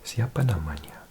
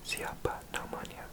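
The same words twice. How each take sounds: First: Said in the usual way. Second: Siapa namanya whispered much softer, like an echo; fainter whisper. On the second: Shown as a demonstration. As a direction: breathe Siapa namanya barely audibly.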